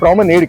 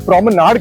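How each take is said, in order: First: It is said with an American English pronunciation. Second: It is said with a British English pronunciation. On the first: "जो अमेरिकी अंग्रेजी है उसमें इसे प्रोमेनेड कहते हैं" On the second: "जो ब्रिटिश इंग्लिश है उसमें इसे प्रोमेनाड कहते हैं"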